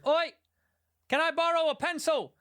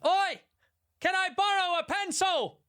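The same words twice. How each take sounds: First: High, loud mock British call; loud, high-pitched yell. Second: Slow, very high hollered question; drawn-out, full-out comic yell; louder call. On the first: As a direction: holler it to a whole cabin. Calls out across sleeping plane cabin. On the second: Acted. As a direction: bellow it high, stretching the words. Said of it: "Say it louder then".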